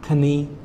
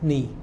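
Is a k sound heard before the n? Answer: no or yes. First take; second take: yes; no. First: A k sound is heard before the n. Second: The word begins straight with the n sound. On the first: The speaker calls it wrong. "I have a lot of students that maybe say canny" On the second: The speaker calls it right. "Silent letter, so just mm"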